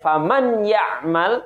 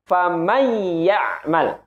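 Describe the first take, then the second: First: The n sound is pronounced before ya'mal. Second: The n sound merges into the y sound. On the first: The speaker calls it wrong. "tidak faman ya'mal" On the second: The speaker calls it right. "nunnya kita leburkan kepada huruf ya"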